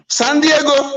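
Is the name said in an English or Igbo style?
Igbo. It is said with an Igbo-style pronunciation. The speaker calls it right. "You don't know how to pronounce Igbo language"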